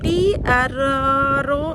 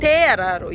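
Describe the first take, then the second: First: The first word sounds like 'tee'. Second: The first word sounds like 'teh'. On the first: The speaker calls it wrong. "ടി അല്ല തേ" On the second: The speaker calls it right. "Pronounce ചെയ്യുക ടി ഇന് തേ എന്നാണ്"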